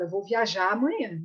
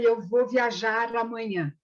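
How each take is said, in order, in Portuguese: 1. O r final de "viajar" é omitido. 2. O r final de "viajar" é claramente pronunciado. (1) "Você fala" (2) "Ninguém fala"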